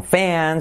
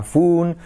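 First: FAN as a slow "feh-an"; second guess. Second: FUN as "foon", higher and drawn out; guessed pronunciation. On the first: Puzzled learner trying another vowel, hesitant drawn-out. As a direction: stretch FAN with an "eh-a" glide. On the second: Puzzled learner guessing from spelling, wondering "foon". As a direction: try FUN with an "oo". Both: Pretend. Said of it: "¿cómo se pronuncia?".

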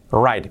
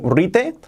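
First: WRITE as one syllable, "rait"; correct pronunciation. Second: RITE in two syllables, "ree-teh"; mispronounced write. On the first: Teacher contrasts it with the Spanish reading, correct pronunciation. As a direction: say "write" exactly like "right", falling. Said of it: "Cambia mucho decir". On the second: Teacher contrasts wrong reading with write, mispronounced write. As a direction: say "rite" as read in Spanish. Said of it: "Cambia mucho decir ri". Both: Shown as a demonstration.

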